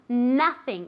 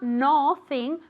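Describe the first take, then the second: First: The first vowel is an open a-like sound. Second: The first vowel is a rounded o sound. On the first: The speaker calls it right. "as if it were written with an A sound" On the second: The speaker calls it wrong. "Like an O? No"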